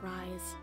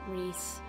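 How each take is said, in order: First: The name is said with an 'eye' vowel. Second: The name is said with an 'ee' vowel. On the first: The speaker calls it wrong. "I was pretty sure it wasn't Rise" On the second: The speaker calls it right. "It's Reese"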